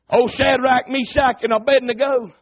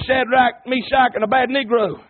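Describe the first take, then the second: First: Said in the usual way. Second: Abednego said as "a-bad-nee-grow"; punning mispronunciation. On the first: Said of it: "Somebody said it was". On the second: Shown as a demonstration. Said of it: "Y'all catch on that in a minute".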